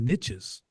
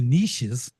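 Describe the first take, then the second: First: Niches is said with 'itch', rhyming with riches. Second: Niches is said with 'eesh', like French. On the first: The speaker calls it right. "how can you say the riches are in the niches?" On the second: The speaker calls it wrong. "Now you're French"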